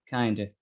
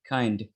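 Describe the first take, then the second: Both takes have the same delivery.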